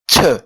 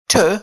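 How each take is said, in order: First: The t is said with a puff of air. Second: The t is said without a puff of air. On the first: The speaker calls it right. "It is aspirated" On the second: The speaker calls it wrong. "instead of saying t"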